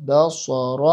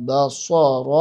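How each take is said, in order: Both takes have the same delivery.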